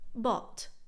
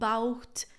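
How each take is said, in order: First: The word is said simply, without extra sounds. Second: Extra letters are sounded in the word. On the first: The speaker calls it right. "It's just bought" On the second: The speaker calls it wrong. "it's not bought, bought. I've heard it all"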